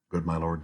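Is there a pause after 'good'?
no. It is said smoothly with no pause.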